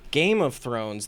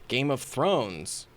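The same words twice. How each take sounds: First: The stress falls on the first word. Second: The stress falls on the last word. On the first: It contrasts a game with something else of thrones. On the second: It contrasts thrones with a game of something else.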